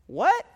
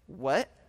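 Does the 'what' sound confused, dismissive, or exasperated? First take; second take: confused; dismissive. First: It sounds confused, as if not hearing the listener. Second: It sounds dismissive, as if the listener is an idiot.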